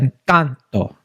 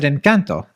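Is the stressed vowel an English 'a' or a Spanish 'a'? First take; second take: Spanish a; English a. First: The middle vowel is an open Spanish 'ah' sound. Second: The middle vowel sounds like English 'a' in 'can'. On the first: "in Spanish, you pronounce A as A. So Encanto" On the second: "Some some people do pronounce it Encanto, and that's not incorrect"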